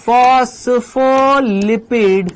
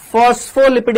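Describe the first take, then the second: First: phospholipid drawn out syllable by syllable at half speed; slow dictation. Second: Said in the usual way. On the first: Real, not acted. Teacher writing phospholipid out again, very slow dictation. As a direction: stretch out every syllable of phospholipid. मैं वापस से लिख देता हूं.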